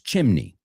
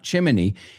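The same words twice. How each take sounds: First: The word is said with two syllables. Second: The word is said with three syllables. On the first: The speaker calls it right. "In English, it's two syllables" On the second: The speaker calls it wrong. "but it's not chimney"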